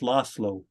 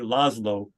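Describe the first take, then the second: First: The middle consonant is an s sound. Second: The middle consonant is a z sound. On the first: The speaker calls it right. "That's actually the soft S" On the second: The speaker calls it wrong. "we want to pronounce the Z. So people would say Laszlo, but it's not"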